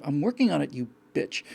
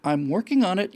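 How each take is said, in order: First: Unsaid snide retort. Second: A touch of impatient "I'm working on it"; brushing off the question, lightly; curt reply. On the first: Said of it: "this unsaid kind of". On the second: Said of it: "And she says something". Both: Retold or imitated.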